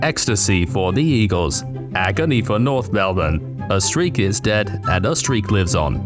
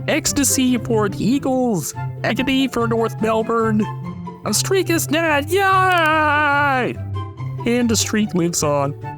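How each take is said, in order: First: It is said in a robotic text-to-speech voice. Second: It is said in a Kermit the Frog voice.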